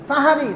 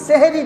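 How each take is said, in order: First: The word begins with an open 'sa' sound. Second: The word begins with an 'se' sound. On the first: It names the predawn meal of Ramadan. The speaker calls it right. "সাহারি সেহেরি না" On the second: It sounds like a word meaning magic. The speaker calls it wrong. "সেহেরি না"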